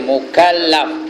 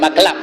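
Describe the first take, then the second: First: The word has three syllables, mu-kal-laf. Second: The word has two syllables, mak-laf. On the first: The speaker calls it right. "Sebut betul-betul tu" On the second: The speaker calls it wrong. "bukan maklaf ya"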